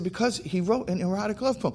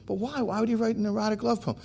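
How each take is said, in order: First: High-pitched retold back-and-forth reply; insistent answering. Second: Much higher, fast imitation of a puzzled woman; baffled insistence. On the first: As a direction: answer back, stuck in the same argument. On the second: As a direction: cut in, still not getting it. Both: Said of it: "we're going back and back and back and forth".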